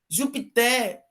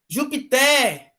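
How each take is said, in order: First: The stress is on the last syllable. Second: The stress is on the last syllable.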